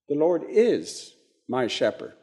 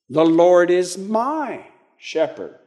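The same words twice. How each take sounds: First: The stress is on "is". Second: The stress is on "my".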